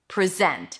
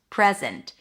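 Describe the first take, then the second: First: The stress is on the second syllable. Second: The stress is on the first syllable. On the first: It is a verb, to show. "If it's a verb, the stress is going to be on the second syllable" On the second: It is a noun, a gift. "On the first syllable, it's a noun"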